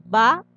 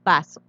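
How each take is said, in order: First: Vaso partido en dos: va... so; separado en sílabas. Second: Said in the usual way. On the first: Shown as a demonstration. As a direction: alargar la primera sílaba de vaso y hacer pausa. (vaso dicho lento, sílaba por sílaba) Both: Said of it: "Al dividir queda".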